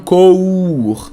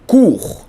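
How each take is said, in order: First: The vowel is not a pure 'oo' sound. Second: The vowel is a pure 'oo' sound. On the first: The speaker calls it wrong. "Vocês não falam cour" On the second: The speaker calls it right. "é cu mesmo"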